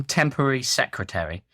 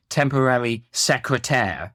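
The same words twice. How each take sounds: First: Said in the usual way. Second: "Secrétaire" said the French way, ending in -taire; French pronunciation. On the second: Retold or imitated. Critic quotes the song's odd line, French pronunciation of "Secrétaire". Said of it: "sung the full line in French".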